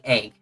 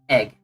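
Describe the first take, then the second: First: The vowel sounds like 'ay', with a weak g. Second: The vowel sounds like 'eh', with a clear g. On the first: The speaker calls it wrong. "which is like me saying a and g" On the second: The speaker calls it right. "you should probably see saying egg"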